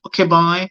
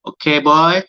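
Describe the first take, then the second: First: High auntie voice, repeated. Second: Put-on high, loud auntie prodding a boy. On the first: Retold or imitated. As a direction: nudge the boy like an auntie. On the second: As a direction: coax him like a nagging auntie. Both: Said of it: "That's my auntie voice".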